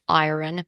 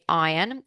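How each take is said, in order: First: It is said in an American accent. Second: It is said in a non-American accent. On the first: "In American English, it's iron" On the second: "I say iron"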